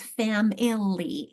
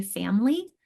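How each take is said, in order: First: "family" broken out as FAM-IL-LEE; full spelling pronunciation. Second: "family" shortened to FAM-lee; everyday pronunciation. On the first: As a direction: sound the hidden middle syllable of "family". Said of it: "help them recognize it is family". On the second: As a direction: drop the middle vowel of "family". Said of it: "even though we say family". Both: Shown as a demonstration.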